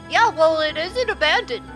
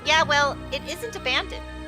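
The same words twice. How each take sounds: First: It is said in a put-on character voice. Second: It is said in the speaker's natural voice.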